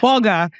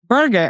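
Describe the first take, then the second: First: It is said in a non-American accent. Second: It is said in an American accent. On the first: This is how the family says it. "we we say it as burger" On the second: This is how Americans say it. "the American accent is burger"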